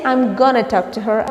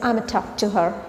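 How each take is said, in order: First: 'Going to' is reduced to 'gonna'. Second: 'Going to' is reduced to a single 'a' sound. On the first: "You can also say I'm gonna talk to her" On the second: "you can say I'm a talk to her"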